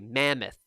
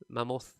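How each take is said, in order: First: The stress falls on the expected syllable. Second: The stress falls on an unexpected syllable. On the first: The speaker calls it right. "we say mammoth" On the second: The speaker calls it wrong. "what she kept on saying was mammoth"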